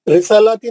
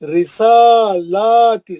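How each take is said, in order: First: The vowel after the s is short. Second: The vowel after the s is drawn out long. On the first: The speaker calls it wrong. "नहीं" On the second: The speaker calls it right. "सीन को भी खींचो।"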